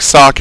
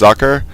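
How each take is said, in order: First: The name is said as one short syllable. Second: The name is said as two syllables. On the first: The speaker calls it wrong. "it looks like Sock" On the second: The speaker calls it right. "it's pronounced Zucker"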